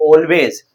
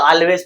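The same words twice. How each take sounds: First: "always" with a rounded "aw" opening; correct pronunciation. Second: "always" with an "aal" opening; common mispronunciation. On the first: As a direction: say "always" as "AWL-ways", drawn out. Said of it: "ये always नहीं है". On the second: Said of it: "बहुत से इसे always पढ़ते हैं". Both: Shown as a demonstration.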